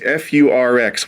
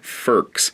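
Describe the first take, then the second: First: It is spelled out letter by letter. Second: It is said as a single word. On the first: This is the official road name. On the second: This is an informal personal shorthand.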